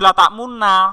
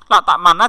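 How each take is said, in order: First: The word is said with rounded lips (ishmam). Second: The word is said plainly, without lip rounding. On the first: "dalam Al-Quran dibuat ismam" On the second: "aslinya latak mana"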